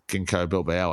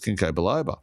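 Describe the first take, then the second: First: The second word is said as bilbao. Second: The second word is said as biloba. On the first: The speaker calls it wrong. "she was pronouncing it as ginkgo bilbao" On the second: The speaker calls it right. "It's ginkgo biloba"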